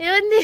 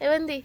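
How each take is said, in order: First: ఏవంది called out louder and higher; coaxing call. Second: Said in the usual way. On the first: Shown as a demonstration. Wife calling her husband louder to coax him. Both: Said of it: "ఎలా బతిమలాడతానో మీరే చూడండి".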